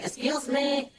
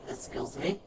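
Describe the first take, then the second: First: "Excuse me!" called out high and bright; hailing a shop worker; calling out. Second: Said in the usual way. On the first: Retold or imitated. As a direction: call "Excuse me!" to someone in the back. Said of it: "Well, they're saying".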